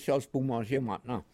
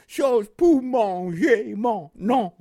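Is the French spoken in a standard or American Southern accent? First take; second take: standard; American Southern. First: It is spoken in a standard French accent. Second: It is spoken in an American Southern accent.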